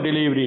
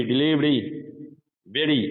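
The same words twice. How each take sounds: First: डिलीवरी with a full trilled r, the way not to say it; डिलीवरी said with a heavy rolled Indian r. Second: Flick a light ड sound in place of the r in डिलीवरी; RP-style डिलीवरी with a flapped r. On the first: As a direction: roll the r in डिलीवरी. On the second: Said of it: "not डिलीवरी". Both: Shown as a demonstration.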